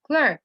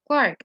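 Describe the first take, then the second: First: Said in the usual way. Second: "Clark" with an ah vowel, British style; British "Clark", open ah instead of er; British pronunciation. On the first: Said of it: "clerk or Clark as it's pronounced". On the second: Shown as a demonstration. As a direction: say "Clark" the British way, rhyming with dark. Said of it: "as it's pronounced in British English".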